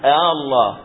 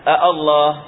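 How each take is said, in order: First: The second glottal stop is softened toward a vowel. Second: Two separate glottal stops are pronounced at the start. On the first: "يسهل الثانية بين الهمزة وبين الألف" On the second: "ما يقولون الله"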